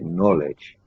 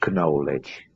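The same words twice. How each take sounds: First: The word begins with an N sound. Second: The word begins with a sounded K. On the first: The speaker calls it right. "you say knowledge. Yeah, so it's the sound N" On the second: The speaker calls it wrong. "you don't say knowledge"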